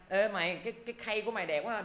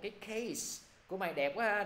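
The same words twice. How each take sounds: First: "khay" for case, no final s, pitched higher; mispronounced case. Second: "case" with its final s, pitched higher; corrected case. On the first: Teacher mimicking a learner praising a friend's case, s dropped. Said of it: "đừng có gọi tiếng Anh". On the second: Teacher correcting the praise of a friend's case, final s sounded. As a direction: put a clear s on "case". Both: Acted.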